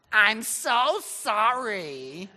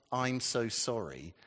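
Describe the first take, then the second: First: Put-on loud, high, drawn-out phony American accent; over-acted American accent, stretching every word out. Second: Said in the usual way. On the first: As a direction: ham it up in a really fake American accent. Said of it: "talking in some really phony American accent".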